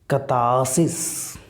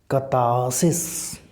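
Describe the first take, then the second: The two takes are said the same way.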